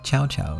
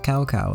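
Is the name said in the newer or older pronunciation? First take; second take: newer; older. First: The name uses the newer game pronunciation. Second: The name uses the older game pronunciation. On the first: The speaker calls it right. "That's how they say it in Dynasty Warriors" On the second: The speaker calls it wrong. "in the old version they pronounced it Cao Cao, and that was wrong"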